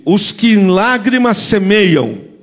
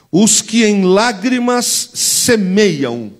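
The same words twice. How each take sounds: First: Slow, louder verse for the church to echo; louder call to repeat. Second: Slow, weighty reading of the verse; slow scripture reading. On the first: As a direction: lead the church in repeating it loudly. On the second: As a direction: read each word slowly for the church to repeat. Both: Shown as a demonstration. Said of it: "Repete comigo".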